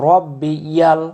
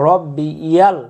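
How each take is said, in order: No difference in how they are said.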